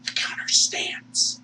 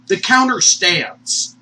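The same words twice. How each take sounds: First: Slow, whispered repeat; drawn-out voiceless hush; whispered echo. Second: Slow, loud THE COUNTER STANDS; drawn-out, forceful announcement; emphatic declaration. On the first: Hushed echo of the declaration. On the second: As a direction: declare it slowly and firmly. Emphatic declaration, then hushed repeat. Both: Real, not acted.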